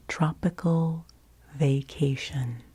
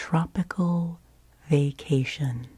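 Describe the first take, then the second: No difference in how they are said.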